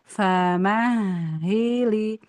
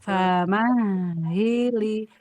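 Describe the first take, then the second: First: The consonant is lengthened and pressed, geminated. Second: The consonant is lengthened and pressed, geminated.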